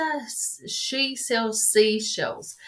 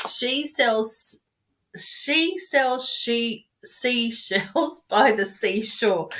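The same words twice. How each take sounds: First: Slow, deliberate, each word placed: "she sells seashells"; careful tongue twister. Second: Slow "she sells seashells by the seashore", tripping over "she-" and laughing through it; stumbling tongue twister. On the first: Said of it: "the tongue twister?". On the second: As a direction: fumble the twister and laugh at yourself. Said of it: "I can't even say it". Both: Shown as a demonstration.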